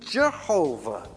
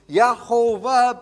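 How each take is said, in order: First: The name begins with a J sound. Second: The name begins with a Y sound. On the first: This is the later English form of the name. "Yehovah became Jehovah" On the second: This is the older form of the name. "all of those old Latin and Hebrew Ys, they change into J's"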